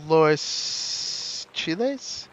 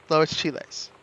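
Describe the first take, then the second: First: "Lois Chiles" drawn out with a questioning rise at the end; "Lois Chiles" very slow, pausing mid-name, lifting at the end; unsure recall. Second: "Lois Chiles" said straight through with a falling end; "Lois Chiles" evenly, landing downward with certainty; confirmed recall. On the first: Trying out a remembered name. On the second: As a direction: settle "Lois Chiles" as a statement. Confirming the remembered name. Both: Real, not acted.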